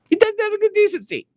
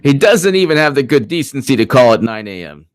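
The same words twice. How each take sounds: First: Squeaky, fast falsetto jab; mock it in a very high squeak; sarcastic falsetto parody. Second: Said in the usual way. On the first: Mocking repeat of his own line.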